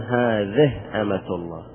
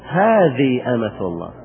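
First: The first word ends in an 'h' sound. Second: The first word ends in a long 'ee' sound. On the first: "يبدلونها إلى هاء" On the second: "بالياء"

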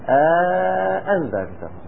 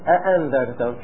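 First: A long vowel separates the two glottal stops. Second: The two glottal stops come directly together. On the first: "بعد الهمزة في ألف فاصلة بين الهمزة الأولى والثانية" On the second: "شوفوا الهمزة موالية للهمزة"

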